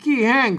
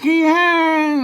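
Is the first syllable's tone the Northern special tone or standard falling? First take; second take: standard falling; northern special. First: The first syllable has the standard Thai falling tone. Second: The first syllable has the Northern special falling tone. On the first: "ขี้แห้งเสียงโทปกตินะครับ" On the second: "อันนี้เปิ้นอ่านเสียงโทพิเศษโทเมืองแล้วขี้แห้ง"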